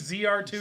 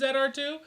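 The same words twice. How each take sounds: First: The letter is pronounced zee. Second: The letter is pronounced zed. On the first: This is the American way of saying it. The speaker calls it right. "Z does sound cooler" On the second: This is the Canadian way of saying it. The speaker calls it wrong. "We don't say Z here in Canada"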